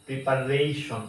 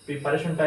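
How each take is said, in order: First: "প্রিপারেশন" with a gliding ray; "প্রিপারেশন" stretched on the RAY syllable; correct pronunciation. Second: "প্রিপারেশনটা" starting with pree; "প্রিপারেশনটা" with i in the first syllable; mistaken pronunciation. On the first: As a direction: say the re in "প্রিপারেশন" as rei. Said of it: "এখানে রেই হবে". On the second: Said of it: "ভুল". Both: Shown as a demonstration.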